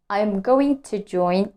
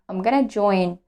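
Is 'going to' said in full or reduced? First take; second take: full; reduced. First: Going to is said in full. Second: Going to is reduced to gonna. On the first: "instead of saying going to" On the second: "I reduce and I say gonna"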